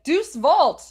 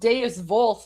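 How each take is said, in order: First: The first word sounds like 'deuce'. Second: The first word has two syllables, 'de-us'. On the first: The speaker calls it wrong. "I was like Deuce Vault" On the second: The speaker calls it right. "I mispronounced Deus Volt the first time"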